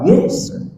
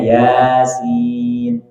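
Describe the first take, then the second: First: It is said as one short syllable. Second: It is said as two separate letter names. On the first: The speaker calls it wrong. "Dia masa bilang apa?" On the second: The speaker calls it right. "jadi bacanya"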